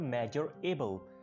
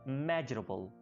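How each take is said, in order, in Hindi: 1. r ध्वनि 'able' से अलग रखी गई है। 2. r ध्वनि 'able' के साथ जोड़ी गई है। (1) "इसको आप पहले बोलते होंगे मेजरेबल" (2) "जिसका आर है उसको आपने एबल के साथ मिला लेना है"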